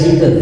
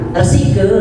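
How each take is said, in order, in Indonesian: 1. Konsonan di tengah itu tunggal dan pendek. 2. Konsonan di tengah itu double dan ditahan panjang. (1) "karena hilang satu jadi resike" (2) "konsonannya double"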